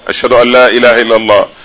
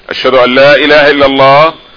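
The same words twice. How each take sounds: No difference in how they are said.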